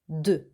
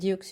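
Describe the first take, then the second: First: The word has its real French sound. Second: The word is read out as it is spelled. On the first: The speaker calls it right. "you say deux" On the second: The speaker calls it wrong. "don't say deux"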